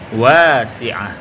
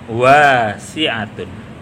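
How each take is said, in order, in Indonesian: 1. Kata ini berhenti pada bunyi h di akhir. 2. Kata ini berakhir dengan bunyi t ditambah -un. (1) "ketika dibaca waqaf, huruf yang terakhir atau taknya bersuara seperti suara ha" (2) "Kalau diwasolkan"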